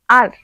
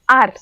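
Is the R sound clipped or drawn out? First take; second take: clipped; clipped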